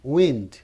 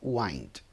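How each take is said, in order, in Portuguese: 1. Ela usa a pronúncia de substantivo da palavra. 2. Ela usa a pronúncia de verbo da palavra. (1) "E se for substantivo, é wind" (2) "Se for verbo como está aqui, ela é wind"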